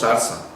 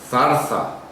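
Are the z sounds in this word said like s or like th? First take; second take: s; th. First: The z sounds are said as s sounds. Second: The z sounds are said as th sounds. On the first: "nosotros decimos" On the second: "Nosotros no decimos"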